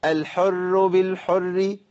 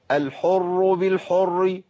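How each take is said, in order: First: الحر بالحر chanted slow, both r's thin and light; both raas alike. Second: الحر بالحر chanted slow, both r's thick and dark; both raas heavy. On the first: Teacher imitates a common error, both r's light in الحر بالحر. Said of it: "ولا أجيب الاتنين مرققين". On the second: Teacher imitates the opposite error, both r's heavy in الحر بالحر. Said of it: "ما أجيبش الاتنين مفخمين". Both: Shown as a demonstration.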